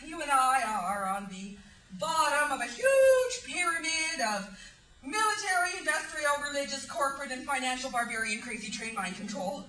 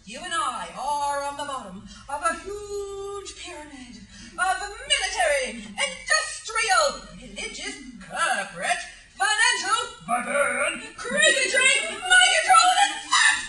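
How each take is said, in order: First: It is said at a fast pace. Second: It is said at a slow pace.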